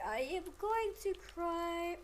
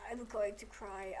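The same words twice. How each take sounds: First: "I am" drawn out in full, pitched higher; emphatic repeat. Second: Said in the usual way. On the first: Real, not acted. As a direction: insist on "I am", higher and whiny with frustration. Repeats it emphatically, frustrated with game.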